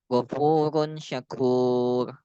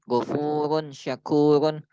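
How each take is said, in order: First: The last word stops without the -un ending. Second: The last word ends with a full -un ending.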